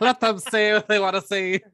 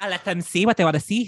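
First: Loud, high Irish-sounding lilt; hammed-up Irish proclamation; accidental Irish accent. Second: Put-on lightly Irish-accented echo; a hint of Irish brogue; mock Irish accent. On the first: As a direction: slip into a mock Irish voice. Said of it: "I don't know why it sounded Irish". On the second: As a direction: copy the line in a playful Irish lilt. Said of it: "You sound like a real Roy Sheen Murphy".

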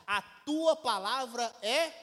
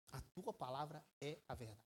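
First: Slow and louder, building up to the word; slow solemn proclamation. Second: Much lower and far softer, almost breathed out; hushed solemn close. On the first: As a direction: proclaim it slowly from the pulpit. Reading Jesus' prayer aloud. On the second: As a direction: drop right down to a hush on the truth. Repeats verse after buildup. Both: Acted.

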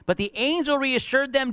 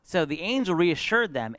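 First: Much higher, ringing pulpit delivery; preaching proclamation. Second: Said in the usual way. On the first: Acted. Preacher retelling the angel's visit, high proclamation. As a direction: lift it into a proclamation.

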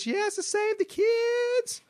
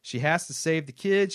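First: Very high, drawn-out put-on voice; Arlene. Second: Said in the usual way. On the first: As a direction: wail it slowly in a piercingly high character voice. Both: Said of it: "Requested to read in my Arlene voice".

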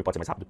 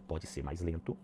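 First: "mais rápido" said briskly; quicker pace. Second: "mais lento" eased out, soft and low; slower pace. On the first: Coach demonstrating vocal speed, "mais rápido" said quickly. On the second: Coach demonstrating vocal speed, "mais lento" said slowly. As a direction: let "mais lento" slow down and drop. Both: Shown as a demonstration.

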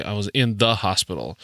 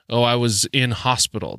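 First: "the" picked out before "hospital"; stress on THE. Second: "in hospital" run straight together, no article; British phrasing. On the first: Podcaster showing the article British people omit, stressing "the". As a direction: lean on the word "the" in "in the hospital". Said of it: "They don't say". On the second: Podcaster quoting how British people drop the article, "in hospital" unbroken. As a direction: say "in hospital" as one smooth phrase. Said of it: "like, British people, they say". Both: Shown as a demonstration.

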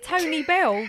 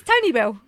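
First: "Tony Bell" split into two names; rejected two-word pronunciation. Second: "Tony Bell" joined up as a single word; one-word pronunciation. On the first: Asking why everyone says it so, two-word "Tony Bell". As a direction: say "Tony Bell" as first name and surname. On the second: Correcting everyone on the van's name, one-word "Tony Bell". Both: Shown as a demonstration. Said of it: "'Cause it's one word".

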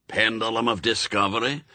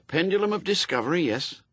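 First: Put-on brusque old witchfinder with a Scots burr; old Scots sergeant. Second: Put-on quick, eager, higher young recruit; nervous young Newt. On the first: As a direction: bark orders like a crusty sergeant. Shadwell checks kit. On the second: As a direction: rattle it back like a jittery lad. Newt answers.

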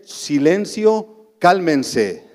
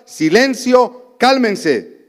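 First: Silencio drawn out very slowly, calm and gentle; sweet authority. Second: Slow, drawn-out Silencio, higher and firm; stern command. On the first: Jesus calming the waters, slow gentle authority. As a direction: speak to the storm with gentle authority. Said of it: "una dulce autoridad divina". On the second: Jesus rebuking the wind and waves, slow stern command. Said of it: "reprendió al viento y dijo". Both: Acted.

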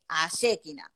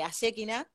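First: Ayekina said with the stress on the E, a-ye-KI-na leaning on E. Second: Said in the usual way. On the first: Shown as a demonstration. Podcast guest showing how her brand Ayekina is stressed, careful stress on the E. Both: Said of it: "el tilde va en la E".

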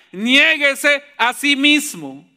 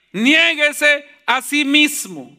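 The two takes are said the same way.

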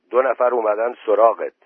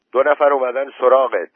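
First: Moderately loud announcement; raised voice. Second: Loud, high calling voice; insistent louder call. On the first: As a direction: call out the news, voice a bit raised. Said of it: "سید آبادی دوباره گفت". (با صدای نسبتاً بلند) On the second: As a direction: raise your voice to get through to him. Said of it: "با صدای بلندتر گفت". (با صدای خیلی بلند) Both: A narrator's reading.

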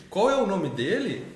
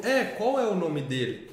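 First: Higher, slow modelling question; corrective intonation. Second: Slow, drawn-out repeat; child's corrected echo. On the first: Adult modelling the right question for the boy, slow and higher. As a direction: stretch "qual é o", swooping up then falling on "dele". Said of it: "na entonação e no jeito de repetir". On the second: Boy agreeing and repeating the corrected question, slowly. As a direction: stretch "é" and "qual é", falling on "dele". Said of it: "jeito de repetir". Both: Retold or imitated.

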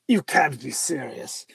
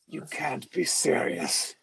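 First: Low, slow put-on Plummer voice; a hint of an incredulous Plummer; Christopher Plummer voice. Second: Low, slow, quiet put-on Plummer voice; Christopher Plummer voice. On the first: Friend scoffs at the president, low mock Plummer. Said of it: "he has that Christopher Plummer voice". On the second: President's friend dismisses disarmament, low Plummer impression. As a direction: lightly mimic a disbelieving Plummer. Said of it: "And Christopher Plummer's like".

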